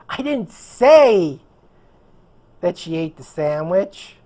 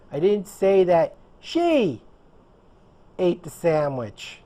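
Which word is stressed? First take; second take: say; she. First: The word "say" carries the stress. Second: The word "she" carries the stress. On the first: It was implied, not said. "I implied it" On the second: Someone else did it. "I said that someone else did it"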